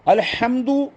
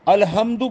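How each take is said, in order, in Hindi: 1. h हलक़ से निकलने वाली एक तनी हुई आवाज़ है। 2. h एक सादी, हल्की साँस वाली आवाज़ है। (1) "ये सही है बिल्कुल" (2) "ये गलत हो जाए"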